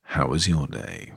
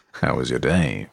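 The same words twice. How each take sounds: First: Deeper and softer, slowed right down; low, soft sincere. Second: Very deep voice. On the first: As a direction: ask gently and slowly, with care. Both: Shown as a demonstration. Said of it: "I'm gonna ask again".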